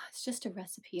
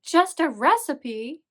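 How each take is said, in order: First: Imitating a let-down friend, much softer; mock disappointed. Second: Loud, high, drawn-out incredulous retort; mock indignant. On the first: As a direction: sigh it out quietly, playing disappointed. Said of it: "Kay was all disappointed". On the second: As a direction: throw it back in exaggerated outrage, pitch swooping. Indignant retort to disappointed Kay.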